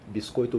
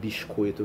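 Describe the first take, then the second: First: The s is a plain hissing sound. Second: The s is pulled into a 'sh' sound.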